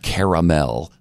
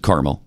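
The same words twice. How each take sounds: First: The first syllable sounds like 'care'. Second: The first syllable sounds like 'car'. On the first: The speaker calls it wrong. "not caramel" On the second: The speaker calls it right. "I do pronounce it caramel"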